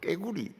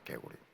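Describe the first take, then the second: First: The first consonant is tense, like kk. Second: The first consonant is plain, like g. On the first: The speaker calls it wrong. "꼭 깨구리 이렇게 합니다" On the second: The speaker calls it right. "수천 번 연습한 결과 개구리가 나오는 겁니다"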